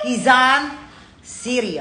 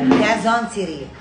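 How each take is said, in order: First: Quezon is pronounced in a showy, affected way. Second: Quezon is pronounced in a plain, ordinary way. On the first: The speaker calls it wrong. "ang ate ng pagkakasabi ko ng Quezon" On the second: The speaker calls it right. "Quezon lang"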